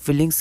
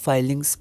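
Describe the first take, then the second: First: The first vowel is a short 'i' sound. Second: The first vowel is an 'eye' sound. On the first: The speaker calls it wrong. "फिलिंग्स की जगह" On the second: The speaker calls it right. "हम लोग इसको फाइलिंग्स pronounce करते हैं"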